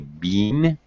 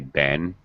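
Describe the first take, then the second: First: The vowel is long and full, like 'bean'. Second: The vowel is short and reduced, near schwa. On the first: This is the typical British pronunciation. "much more likely for a British speaker to say bean" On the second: This is the typical American pronunciation. "as an American, I always say Ben. Uh, I use a more reduced. Uh, I use the schwa sound"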